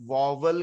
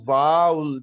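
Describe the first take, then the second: First: واول said as VOV-ul, with a second v; local mispronunciation. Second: واؤل as one loud, drawn-out "vowl"; correct pronunciation. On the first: Teacher showing how it is said here, mispronounced as VOV-ul. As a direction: say واول in two syllables, "vo-vul". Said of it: "جو کہ غلط ہے". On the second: Teacher giving students the correct word, slow emphatic VOWL. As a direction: stretch واؤل like "owl" with v in front. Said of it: "اس کا درست لفظ". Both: Shown as a demonstration.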